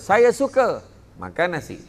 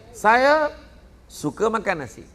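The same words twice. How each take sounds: First: There is a pause after the word suka. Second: There is a pause after the word saya.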